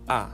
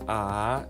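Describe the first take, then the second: First: The pitch falls sharply from high to low. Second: The pitch falls low and then rises. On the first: "ambayo inashuka" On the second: "inashuka, then inainuka"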